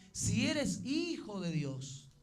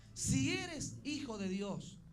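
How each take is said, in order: The two takes are said the same way.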